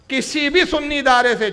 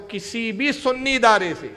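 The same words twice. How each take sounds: First: Louder, higher restatement of the challenge; emphatic louder repeat. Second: Said in the usual way. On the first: Real, not acted. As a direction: press the challenge harder the second time. (دوبارہ زور دے کر، اونچی آواز میں)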